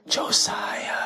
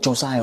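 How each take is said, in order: First: It is said in a creepy voice. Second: It is said in a normal voice.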